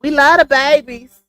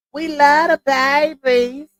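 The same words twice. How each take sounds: First: Said in the usual way. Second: Slow, drawn-out lightly done Martin impression; a hint of Martin, slow and higher. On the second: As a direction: stretch it out like Martin from the sitcom. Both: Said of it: "in my Martin voice".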